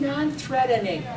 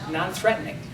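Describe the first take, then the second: First: It is said in an odd, simple-sounding character voice. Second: It is said in the speaker's own natural voice. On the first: "Carl says, ... kind of weird ... like he's a little simple" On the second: "I, [name], says non-threatening"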